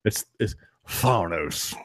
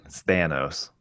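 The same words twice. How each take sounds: First: "Thanos" drawn out slowly with a broad AH; slow, exaggerated "Thanos" with an open first vowel; mock pronunciation. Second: "Thanos" as THAN-ohs, low and soft; pronunciation correction. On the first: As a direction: stretch Thanos into a soft, slow THAAH-nohs. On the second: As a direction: say Thanos softly with the A of "cat". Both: Shown as a demonstration. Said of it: "that's how he wants to pronounce it".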